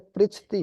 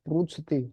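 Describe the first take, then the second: First: The first syllable has an 'ri' sound. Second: The first syllable has a 'ru' sound. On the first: The speaker calls it right. "उच्चारण तो इसका री होता है" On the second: The speaker calls it wrong. "री नहीं बोलते, उसको रू बोलते हैं"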